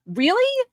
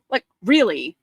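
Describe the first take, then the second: First: High disbelieving really; incredulous really. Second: Said in the usual way. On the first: Retold or imitated. Mocking a heckler after the home run, high disbelief. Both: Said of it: "it was like".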